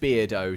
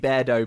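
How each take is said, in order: First: The first part sounds like 'beer', rhyming with weirdo. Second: The first part sounds like 'bear', the animal. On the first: The speaker calls it wrong. "I was pronouncing it Beardo to rhyme with weirdo" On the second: The speaker calls it right. "it's probably supposed to be Beardo because Beardo's a bear"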